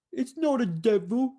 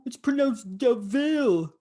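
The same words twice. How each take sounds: First: "devil" said like the ordinary word devil, in a higher mock Cockney voice; imitating Jasper, "devil" as plain DEV-il; mock London bloke saying "devil" the normal way. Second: "Devil" said slowly as "de Vil", stress on VIL, higher mock Cockney voice; imitating Jasper, drawing "Devil" out as de-VIL; mock London bloke slowly correcting to "de Vil"; corrected pronunciation.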